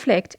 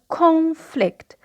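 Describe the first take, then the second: First: The stress is on the second syllable. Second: The stress is on the first syllable. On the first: It is used as a verb. "the stress, as I said, is on the second syllable" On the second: It is used as a noun. "The stress is on the first syllable"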